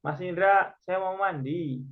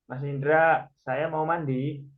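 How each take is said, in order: First: Statement tune. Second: Question tune. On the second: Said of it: "Kalimat pertama nih". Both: Shown as a demonstration.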